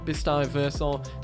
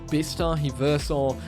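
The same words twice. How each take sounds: First: The name is said at a faster pace. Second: The name is said at a slower pace. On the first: "Meant to say it faster" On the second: "I've definitely mispronounced that"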